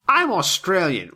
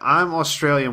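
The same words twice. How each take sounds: First: It is said in a put-on Australian accent. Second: It is said in the speaker's ordinary accent.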